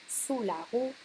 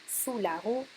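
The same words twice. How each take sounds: The two takes are said the same way.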